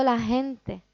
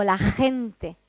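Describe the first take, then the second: First: "la gente" said casually, the J just a light h; relaxed street J. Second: "gente" with a strong throaty J; "la gente" with a rasping velar J from the throat; careful classroom J. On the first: Teacher showing the everyday J. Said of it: "cuando estoy en la calle digo". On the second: Teacher demonstrating the J for beginners. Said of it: "en los niveles más bajos digo". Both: Shown as a demonstration.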